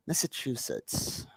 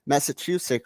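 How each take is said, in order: First: Whispered. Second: Said in the usual way. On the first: Shown as a demonstration. Repeats the name under his breath.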